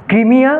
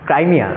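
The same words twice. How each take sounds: First: ক্রিমিয়া said the Bengali way, kri-mi-ya, with a short i and a rising end; Bengali pronunciation. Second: ক্রাইমিয়া said the English way, krai-mi-ya, with the diphthong ai; English name ক্রাইমিয়া spoken as krai-mi-ya; English pronunciation. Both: Shown as a demonstration. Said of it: "ইংলিশে বলে ক্রাইমিয়া".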